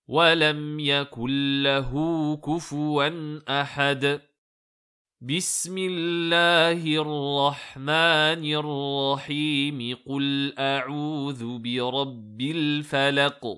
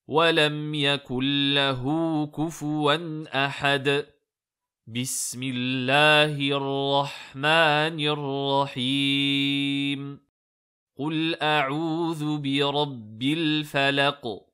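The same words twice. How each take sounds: First: A pause comes only before the basmala. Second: Pauses come before and after the basmala. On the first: "on fait une pause, puis on prononce la basmala avec le début de sourate, sans pause entre les deux" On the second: "on fait une pause, on récite la basmala, on fait une pause et on commence le début de sourate"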